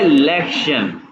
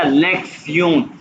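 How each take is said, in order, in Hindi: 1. अंत 'shun' जैसा सुनाई देता है। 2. अंत 'tsee-on' जैसा सुनाई देता है। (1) "ये लिखा हुआ है लेक्शन" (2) "इसको जो मैं वैसे प्रोनाउंस करते हैं सियोन"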